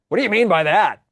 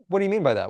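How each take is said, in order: First: The question sounds sharp and challenging. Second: The question sounds open and gently curious. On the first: The asker is challenging or attacking the other person. The speaker calls it wrong. "You don't want to say it like that" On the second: The asker genuinely wants to understand. The speaker calls it right. "Can you say more about that?"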